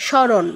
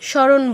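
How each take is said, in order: First: The m sound after the s is dropped. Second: The m sound after the s is dropped.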